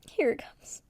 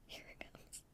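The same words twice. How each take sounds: First: Breathy hushed build-up before the reveal; teasing whisper; whispered suspense. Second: Barely audible, trailing off; dying hush; fainter whisper. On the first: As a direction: whisper it like a secret about to drop. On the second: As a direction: let the whisper fade to almost nothing. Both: Real, not acted.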